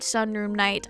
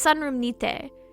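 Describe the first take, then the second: First: The last word sounds like English 'night'. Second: The last word sounds like Japanese 'nite'. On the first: The speaker calls it wrong. "It is not Sunroom Night" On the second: The speaker calls it right. "It's Sunroom Nite, in the sunroom"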